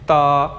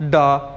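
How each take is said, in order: First: It starts with a voiceless t sound. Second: It starts with a voiced d sound. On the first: This is how it is said in Chinese. The speaker calls it right. "लेकिन चाइनीज में हम इसे बोलेंगे ता" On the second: This is how the spelling seems to read. The speaker calls it wrong. "बज़ाहिर लग रहा है"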